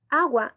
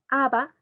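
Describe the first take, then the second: First: The word is said with a g sound. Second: The word is said with a b sound. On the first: An adult models the proper word. The speaker calls it right. "como son correctas" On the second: A small child said it. The speaker calls it wrong. "una palabra que no es correcta"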